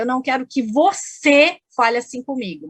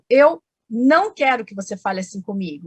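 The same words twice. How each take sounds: First: The word você carries the main stress. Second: The word não carries the main stress. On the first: Others may speak that way, but not this person. "os outros podem e você não" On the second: A plain negative statement. "eu marquei o advérbio"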